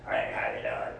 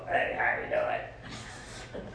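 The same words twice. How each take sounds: First: Much lower, rough smoker's hello; raspy old smoker voice. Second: Much lower, very slow, breathy croak; low slow smoker croak. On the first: Preacher mimics an old smoker greeting him on the job, low and rough. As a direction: growl it like a woman with ruined vocal cords. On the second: Preacher imitates the smoker woman's greeting, slow deep croak. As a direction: drag it out like wrecked vocal cords. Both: Retold or imitated. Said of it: "He talked like that".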